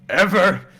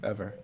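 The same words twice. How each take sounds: First: Ever said higher and louder, falling; loud insistent ever. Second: Said in the usual way. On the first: A narrator's reading. Narrator vowing never to forget, loud insistent. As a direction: slam down on Ever. Repeated building word.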